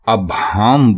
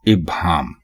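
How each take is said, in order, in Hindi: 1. शब्द 'a' की आवाज़ से शुरू होता है। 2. शब्द 'i' की आवाज़ से शुरू होता है। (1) "अबहाम बोलना बिल्कुल गलत है" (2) "दुरुस्त लफ्ज़ है इब्हाम"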